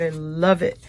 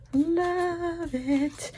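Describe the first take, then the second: First: Said in the usual way. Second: High, soft squeal of delight; love it again in a tiny high voice; squeaky gush. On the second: Real, not acted. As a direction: coo it like a thrilled collector.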